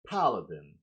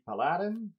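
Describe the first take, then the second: First: It is pronounced with an English accent. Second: It is pronounced with a French accent. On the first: The speaker calls it right. "It's the paladin" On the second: The speaker calls it wrong. "No, I misspell it. ... this is my French accent"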